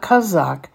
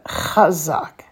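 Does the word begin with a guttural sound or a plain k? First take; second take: plain k; guttural. First: It begins with a plain k sound. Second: It begins with a throaty guttural sound. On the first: The speaker calls it wrong. "Not kazak" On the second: The speaker calls it right. "but chazak"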